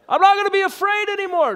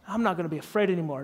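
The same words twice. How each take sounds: First: High, louder shouted vow; yelled declaration. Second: Said in the usual way. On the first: Retold or imitated. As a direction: yell it at the top of your lungs. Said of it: "he makes me yell this". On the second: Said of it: "say it like you mean it".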